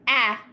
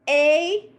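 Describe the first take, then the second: First: The vowel is short, like in 'at'. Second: The vowel is long, like the letter name. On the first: "A is the short sound" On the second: "A is the long sound"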